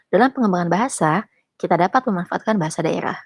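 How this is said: The pause falls after the word bahasa. We can use regional languages in language development. The speaker calls it right. "Beda kan"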